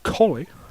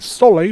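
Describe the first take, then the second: First: The name begins with a K sound. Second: The name begins with an S sound. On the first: The speaker calls it right. "but it's actually Coley" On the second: The speaker calls it wrong. "I've been saying Soley"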